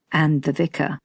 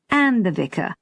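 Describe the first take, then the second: First: Said in the usual way. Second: Conceding echo with emphatic "And"; stress on And. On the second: A narrator's reading. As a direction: echo it back, leaning on "And".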